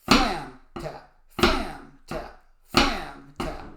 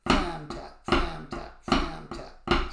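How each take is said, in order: First: "Flam" hit hard and loud, "tap" dropped; stress too strong on "Flam". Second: Light accent on "Flam", easy "tap" after it; relaxed emphasis on "Flam". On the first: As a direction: punch each "Flam" far too hard. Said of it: "we don't want too strong an accent". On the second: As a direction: lean gently on "Flam", keep it bouncing. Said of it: "We want a nice, relaxed emphasis". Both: Shown as a demonstration.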